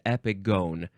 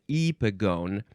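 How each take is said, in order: First: The last syllable has a long O sound. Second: The last syllable has a short O sound. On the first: The speaker calls it right. "It is epigone" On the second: The speaker calls it wrong. "it's not epigone"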